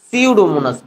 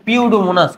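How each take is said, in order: First: The word begins with an s sound. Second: The word begins with a p sound. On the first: The speaker calls it right. "পির উচ্চারণ হবে না" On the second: The speaker calls it wrong. "কিন্তু পিউডোমোনাস তো না"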